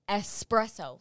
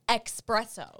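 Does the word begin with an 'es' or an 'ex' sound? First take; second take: es; ex. First: The word begins with an 'es' sound. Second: The word begins with an 'ex' sound. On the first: The speaker calls it right. "that's how you say the word espresso" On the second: The speaker calls it wrong. "It's not espresso"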